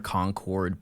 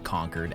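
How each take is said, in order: First: The second part sounds like the word 'cord'. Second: The word sounds like the word 'conquered'. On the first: "I know that they're Concord" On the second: "as in like I conquered a castle"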